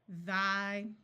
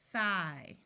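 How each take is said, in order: First: The th sound is made with voice. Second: The th sound is made without voice. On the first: "Now let's do it with the voice sound" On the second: "using the unvoiced th sound"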